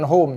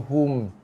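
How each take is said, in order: First: The vowel sounds like the English word home. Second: The vowel is a short u sound. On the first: The speaker calls it wrong. "ni bukan home" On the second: The speaker calls it right. "ini hum"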